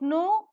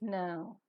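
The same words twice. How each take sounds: First: The vowel is a single pure o sound. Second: The vowel glides as a diphthong. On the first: The speaker calls it wrong. "It's not no" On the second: The speaker calls it right. "it is no"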